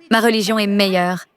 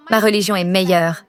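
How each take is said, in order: Both takes have the same delivery.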